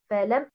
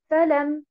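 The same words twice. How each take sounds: First: The stress is on the second syllable. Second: The stress is on the first syllable. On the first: It is two words: a preposition and a negation. The speaker calls it right. "si vous mettez l'accentuation sur harakat el-lam" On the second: It is one word that does not exist. The speaker calls it wrong. "si vous accentuez harakat el-fa, vous aurez un mot qui n'existe pas"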